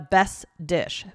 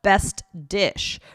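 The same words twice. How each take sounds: First: The T at the end of best is dropped. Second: The T at the end of best is pronounced. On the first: "we would just say the best dish" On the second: "instead of best dish"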